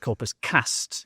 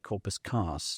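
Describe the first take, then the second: First: It is said in a Northern English accent. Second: It is said in a Southern English accent. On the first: The speaker calls it right. "remind people of my Northern English accent" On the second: The speaker calls it wrong. "I won't say corpus cast"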